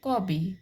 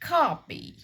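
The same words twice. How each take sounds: First: It is said in an Indian English accent. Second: It is said in a British English accent. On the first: The speaker is not trying to show off. "अगर हम अपने accent में English बोल रहे हैं" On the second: The speaker really wants to sound British. "अगर हम really British accent में इंग्लिश बोलना चाहते हैं"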